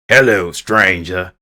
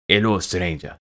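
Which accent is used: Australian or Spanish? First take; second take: Australian; Spanish. First: It is spoken in an Australian accent. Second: It is spoken in a Spanish accent. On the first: This is how the character originally sounded. "instead of saying" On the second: This is how the character will sound now. "he's going to say"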